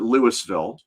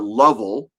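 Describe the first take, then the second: First: The name is said the way a tourist says it. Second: The name is squeezed into a short, reduced form. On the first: The speaker is a visitor to the city. "If you're a tourist, you call it" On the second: The speaker has lived in the city a long time. "If you've been there a really long time, you probably call it"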